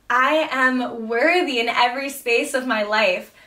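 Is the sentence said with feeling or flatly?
feeling. It is said warmly, with emotional feeling. The speaker truly feels the words. The speaker calls it right. "I say it with a little feeling, with a little soul"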